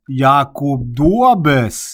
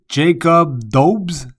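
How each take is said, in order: First: The name is pronounced with Czech sounds. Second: The name is pronounced with English sounds. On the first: "sur la langue de la République tchèque et on prononce" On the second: "sa prononciation en anglais"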